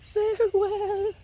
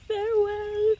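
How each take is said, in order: First: Much higher, slower, hammed-up crying farewell; mock tearful farewell. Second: Much higher farewell, drawn and sweet; sing-song farewell. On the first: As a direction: pretend to weep as you wave. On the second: Acted. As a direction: wave goodbye in song. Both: Lady waving farewell.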